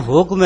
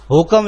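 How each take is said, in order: First: حکم said hukm, k and m joined with no vowel; حکم as one closed syllable, hukm; clipped حکم with no extra vowel; correct pronunciation. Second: حکم said hukam, an extra a before m; حکم split into two syllables, hu-kam; mispronounced حکم with an added vowel; common wrong pronunciation. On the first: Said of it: "حکم ہے". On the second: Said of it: "حکم لفظ نہیں ہے". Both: Shown as a demonstration.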